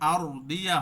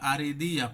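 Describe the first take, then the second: First: The r has no vowel after it. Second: The r is followed by an e vowel. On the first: The speaker calls it wrong. "এখানে আর দিয়া হবে না" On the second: The speaker calls it right. "জবর অথবা জেরও পড়তে পারি"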